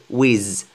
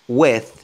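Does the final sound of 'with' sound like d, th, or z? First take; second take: z; th. First: The word ends with a z sound. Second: The word ends with a th sound. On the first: "ne dites jamais, parce que c'est connu en fait, que les Français disent Z" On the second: "des anglophones qui prononcent with, with, avec th"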